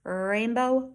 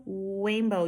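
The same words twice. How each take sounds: First: Rainbow with a long opening R; "Rainbow", R held and clearly sounded; correct initial R. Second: Rainbow said as "wainbow"; "rainbow" with the R softened into W. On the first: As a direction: stretch the first R in "Rainbow". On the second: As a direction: begin "rainbow" with a W. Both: Shown as a demonstration. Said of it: "you can see the difference".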